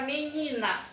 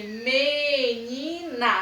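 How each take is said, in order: First: Said in the usual way. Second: MENINA very slow, stretched as MEEE-NIII-NA; teacher sounding out MENINA in three long beats; separated syllables. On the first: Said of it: "Nós vamos falar ela três vezes". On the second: Shown as a demonstration. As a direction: draw out each syllable of MENINA. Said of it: "você vai separar ela em três".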